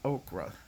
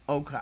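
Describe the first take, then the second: First: It has an r sound right after the k. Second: It has no r sound right after the k. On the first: The speaker calls it wrong. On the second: The speaker calls it right.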